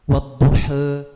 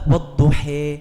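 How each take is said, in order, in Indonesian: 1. Vokal akhirnya berada di tengah antara a dan e. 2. Vokal akhirnya dinaikkan mendekati e. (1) "ada pakai taklil" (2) "pakai imalah"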